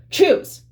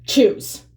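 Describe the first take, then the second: First: "Choose." shouted much higher and louder; aggressive mock shout. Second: A hint of a curt, aggressive order. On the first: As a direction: snap "Choose." as a loud, aggressive order. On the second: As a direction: bark the word as a mild mock command. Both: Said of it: "in a really aggressive way".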